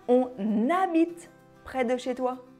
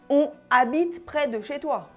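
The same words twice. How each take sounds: First: On is linked to the vowel with an n. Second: On is said without linking to the vowel. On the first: The speaker calls it right. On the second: The speaker calls it wrong.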